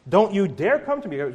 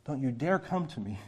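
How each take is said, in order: First: Loud warning with DARE hit hard; stern rebuke. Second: Hushed warning. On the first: God warning Israel not to approach, loud and stern. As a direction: bark the warning at them as God. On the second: God warning the people, hushed and stern. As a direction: warn them quietly but firmly. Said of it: "I said that very harshly". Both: Acted.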